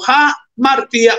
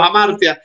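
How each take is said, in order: First: Hamartia said as ha-mar-TEE-a, stress on "ti". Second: Hamartia said as ha-MAR-tya, stress on "mar". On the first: Preacher repeats Greek word for congregation, stress on TI in "hamartia". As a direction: put the accent of hamartia on "ti". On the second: Preacher gives either accent of Greek word, stress on MAR in "hamartia". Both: Shown as a demonstration. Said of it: "como usted le ponga el acento".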